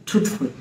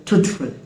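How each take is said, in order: Both takes have the same delivery.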